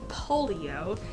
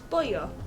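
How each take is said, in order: First: The word is said with three syllables. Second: The word is said with two syllables. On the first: The speaker calls it wrong. "I pronounced that very, very wrong" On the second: The speaker calls it right. "this is pollo, aka chicken in Spanish"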